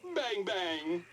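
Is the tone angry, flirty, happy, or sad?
happy. It is said in a happy tone.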